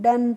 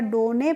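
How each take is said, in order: First: It has a short 'uh' vowel, no final vowel. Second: It has an 'oh' vowel and a final 'ay'. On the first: The speaker calls it right. "हम डन पढ़ते हैं।" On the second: The speaker calls it wrong. "नहीं, इसको हम डोने नहीं पढ़ते हैं।"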